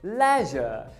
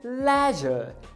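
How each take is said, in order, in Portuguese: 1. É dita com pronúncia britânica. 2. É dita com pronúncia britânica.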